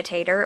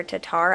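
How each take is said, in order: First: "Tatar" said as TAH-tar, first syllable stressed; first pronunciation. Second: "Tatar" said like "Tater", TAY-ter; self-correct, saying "Tatar" with a long ay, like tater; corrected pronunciation. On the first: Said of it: "I think we pronounce it". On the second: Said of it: "I think we pronounce it Tater". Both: Shown as a demonstration.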